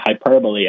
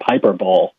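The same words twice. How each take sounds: First: The word is said with four syllables. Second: The word is said with three syllables. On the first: The speaker calls it right. "remind myself to say hyperbole" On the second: The speaker calls it wrong. "instead of hyperbole"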